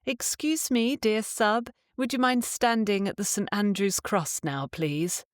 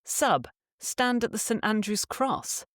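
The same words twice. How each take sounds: First: Timid, pleading polite ask; overly polite request. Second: Short, firm order; just tell him, no asking; simple command. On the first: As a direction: ask sweetly, as if asking a favour. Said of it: "you don't say". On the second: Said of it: "you simply command". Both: Shown as a demonstration.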